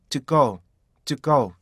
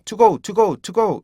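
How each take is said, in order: First: "to go" with "to" as a short "tuk"; stopped TO GO. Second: "to go" with "too" high and full, repeated; full-vowelled TO GO. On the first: Teacher gives the correct model, stopped "to go". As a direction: stop "to" dead, then release "go". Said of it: "이렇게 툭으로 발음하셔야 돼요". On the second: Teacher imitates learners saying to, high full "to go". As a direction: push "to" up as a full word in "to go". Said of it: "to라고 발음하잖아요". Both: Shown as a demonstration.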